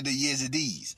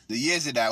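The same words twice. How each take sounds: First: "Yezidis" ending in an "eez" sound; common mispronunciation. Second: "Yezidi" ending in a long "eye" sound; original pronunciation. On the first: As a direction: say "Yezidis" as YEZ-ih-deez. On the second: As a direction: say "Yezidi" as YEZ-ih-dye. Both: Shown as a demonstration. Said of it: "that's a mispronunciation of".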